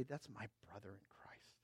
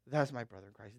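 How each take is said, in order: First: Hushed whisper, almost no voice. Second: Said in the usual way. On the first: Acted. Pastor pointing to his friend in the congregation, hushed whisper. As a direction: breathe it like a secret to the front row.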